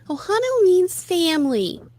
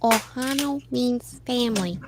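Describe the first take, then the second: First: Said in a put-on Lilo character voice. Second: Said in a put-on Stitch character voice. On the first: The speaker calls it wrong. "try to make it sound more like Lilo" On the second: The speaker calls it right. "I'm purposely imitating Stitch"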